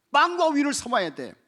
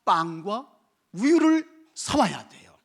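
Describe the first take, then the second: First: Loud, high insistence; 빵과 우유를 shouted from the pulpit; emphatic shout. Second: Slow, deliberate. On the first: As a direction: drive the point home. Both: Shown as a demonstration. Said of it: "뭐 해야 됩니까?".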